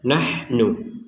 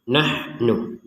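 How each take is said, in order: First: The h is followed directly by the n. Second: The same.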